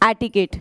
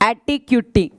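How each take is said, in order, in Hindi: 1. इसे 'etiket' ऐसे बोलते हैं, 'ket' पर खत्म होता है। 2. इसे 'eti-cutie' ऐसे बोलते हैं, 'cutie' पर खत्म होता है। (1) "इसकी एक्चुअल प्रोनाउंसिएशन होती है एटिकेट" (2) "देखो बोलो एटी और फिर बोलना क्यूटी"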